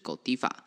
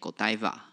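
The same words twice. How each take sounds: First: The brand name has a European pronunciation. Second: The brand name has a native English pronunciation. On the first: "它在欧洲的念法是Godiva" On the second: "英文母语人士会念Godiva"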